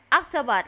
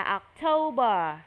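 First: "October" said like octopus, OK-tuh-bot; wrong-example "October", short and ending almost in a T; mispronounced October. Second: "October" as ok-TOH-ber, long middle syllable; correct October. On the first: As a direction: say "October" with a short middle, like the sea animal. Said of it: "October là con bạch tuộc ha". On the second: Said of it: "Tháng mười mình phải đọc là". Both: Shown as a demonstration.

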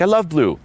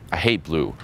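First: High mock gushing; perky imitation of her enthusiasm; imitated eager girl. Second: Falling, understated mock disapproval; acted matter-of-fact put-down; deadpan contrarian reply. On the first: Imitates girl answering, versus his reply. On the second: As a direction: contradict her coolly. His contrarian reply in example.

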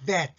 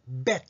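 First: Vet with a buzzing v at the start; teeth-on-lip V. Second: Bet with a popped b at the start; closed-lip B. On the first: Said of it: "上の歯を唇に軽く添えて". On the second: Teacher showing the wrong sound for vet, lip-burst b. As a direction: press both lips shut, then release bet. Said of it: "これを唇をしつけて". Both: Shown as a demonstration.

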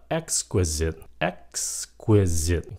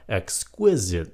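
First: EXQUISITE stressed as EX-qui-site; older stress. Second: EXQUISITE stressed as ex-QUIS-ite; modern stress. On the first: Teacher shows the old reading, EX-quisite stressed up front. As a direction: hit the first syllable of EXQUISITE. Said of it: "Cái chữ đó nhấn âm một". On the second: Teacher shows today's common reading, ex-QUIS-ite. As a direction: hit the second syllable of EXQUISITE. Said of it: "nhấn âm hai". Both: Shown as a demonstration.

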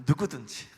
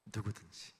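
First: 누구든지 pressed out loud and firm; 누구든지 punched with force; emphatic repeat. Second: 누구든지 said softly, falling away; 누구든지 as a gentle echo; soft repeat. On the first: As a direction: lean hard on 누구든지. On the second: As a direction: let 누구든지 sink quietly. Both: Shown as a demonstration. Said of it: "누구든지입니다".

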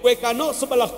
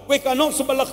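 No difference in how they are said.

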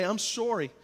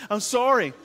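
First: Canadian "sorry", first vowel rounded like "sore-y"; accidental Canadian accent. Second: Said in the usual way. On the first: Real, not acted. Pastor apologising to his child, slipping into a Canadian accent. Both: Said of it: "I turn Canadian all of a sudden".

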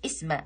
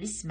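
First: اسم with a glottal stop, 'isma; wrong hamza demo. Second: اسم as isma, with no glottal stop; correct alif wasl demo. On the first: Showing what we don't say, hamza on اسم. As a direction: hit a hamza at the start of اسم. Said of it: "ما نقولش اسم". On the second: Showing what we say, hamza-less اسم. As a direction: slip into اسم smoothly, dropping the hamza. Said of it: "نقول اسم". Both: Shown as a demonstration.

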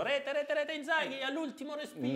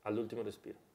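First: High-pitched commentator goal call; football commentator call. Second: Said in the usual way. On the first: Retold or imitated. Imita la telecronaca di Piccinini. (telecronaca del gol con voce acuta)

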